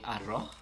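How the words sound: The final s sound is aspirated like breath. "they have a tendency of aspiring their S's"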